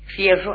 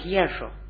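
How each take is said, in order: First: The word begins with an f sound. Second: The word begins with a breathy h sound.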